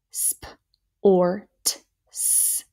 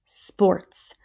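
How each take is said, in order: First: "Sport, s-" split as sp, or, t, s; sounded out. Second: Said in the usual way. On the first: Shown as a demonstration. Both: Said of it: "Here we go, next row".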